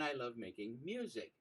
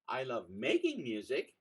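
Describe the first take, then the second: First: The word "music" carries the stress. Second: The word "making" carries the stress.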